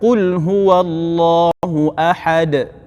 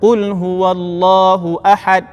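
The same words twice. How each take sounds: First: The final d ends with a slight echoing bounce. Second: The final d stops flat with no echo. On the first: The speaker calls it right. "ada bunyi qalqalah" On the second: The speaker calls it wrong. "itu tak ada bunyi qalqalah"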